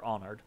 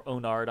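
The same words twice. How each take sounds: First: "Onard" with an open "ah" start, AH-nerd; short-O pronunciation. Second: "Onard" with a long "oh", OH-nard; long-O pronunciation. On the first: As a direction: say "Onard" as AH-nerd, weak second syllable. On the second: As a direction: say "Onard" as OH-nard, full "ard" ending. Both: Shown as a demonstration. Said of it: "I'm not sure how it's pronounced".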